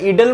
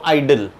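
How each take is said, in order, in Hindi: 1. यह शब्द छोटी 'ih' ध्वनि से शुरू होता है। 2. यह शब्द 'eye' ध्वनि से शुरू होता है। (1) "इडल या इडल मत बोलो इसको"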